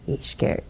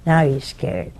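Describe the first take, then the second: First: Hushed, breathy whisper, much softer; whispered aside to build dread. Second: Said in the usual way. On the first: A narrator's reading. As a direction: drop to a whisper on He's scared. Repeats it hushed for effect.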